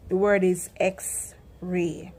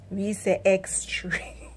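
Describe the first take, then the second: First: Said in the usual way. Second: X-ray said ekstri, slow; Patois X-ray stretched out as ekstri; Jamaican X-ray. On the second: Shown as a demonstration. Vlogger teaching the Jamaican X-ray.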